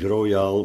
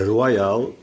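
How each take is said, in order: First: The word has its ordinary Dutch pronunciation. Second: The word has a French-style pronunciation. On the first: It means generous. "ik zeg met opzet niet royaal" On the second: It means in a kingly way. "maar royaal. Dat wil zeggen op koninklijke wijze"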